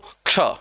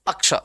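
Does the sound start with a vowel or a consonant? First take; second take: consonant; vowel. First: It begins directly with the consonant sound. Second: It begins with an extra vowel sound. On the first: The speaker calls it right. "अ का कहीं उच्चारण है ही नहीं। ये उच्चारण करना है" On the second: The speaker calls it wrong. "कई लोग इसको पढ़ते हैं अक्ष"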